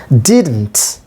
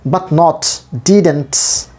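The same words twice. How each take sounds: First: Said in the usual way. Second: "didn't" said slowly as the wrong form to avoid; wrong version. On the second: Shown as a demonstration. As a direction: drag out "not didn't" as a bad example.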